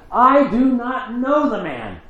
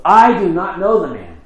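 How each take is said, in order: First: Very high, slow desperate cry of denial; cursing denial. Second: Louder, higher insistent denial; emphatic denial under oath. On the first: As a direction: curse and swear it out in panic. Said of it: "Peter began to curse and swore an oath". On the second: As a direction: swear it off, pushing them away. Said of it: "swearing an oath". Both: Acted.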